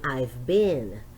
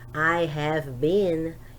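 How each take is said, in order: First: The word 'have' is contracted to a 'v' sound. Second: The word 'have' is said in full. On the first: "you say I've been. So it's much easy for you to speak like this, and it's it's natural" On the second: "instead of you say I have been"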